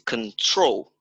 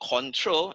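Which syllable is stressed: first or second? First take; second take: second; first. First: The stress is on the second syllable. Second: The stress is on the first syllable. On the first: The speaker calls it right. "is on the second syllable that is on the stress" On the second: The speaker calls it wrong. "is not control"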